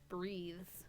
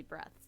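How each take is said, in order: First: BREATHES with a long "ee" vowel; spelling pronunciation. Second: BREATHS with a short "eh" vowel; intended pronunciation. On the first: Reader explaining the misspelt word to a listener, long-vowel BREATHES. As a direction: say BREATHES softly, like the verb "breathe". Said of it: "the way it's spelled". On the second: Reader correcting the text for a listener, short-vowel BREATHS. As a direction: say BREATHS to rhyme with "deaths". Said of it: "it's supposed to be breaths". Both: Shown as a demonstration.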